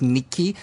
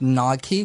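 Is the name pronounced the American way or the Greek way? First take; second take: Greek; American. First: The name is pronounced the Greek way. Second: The name is pronounced the American way. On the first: "the Greek pronunciation is Nike" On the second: "You pronounce it Nike"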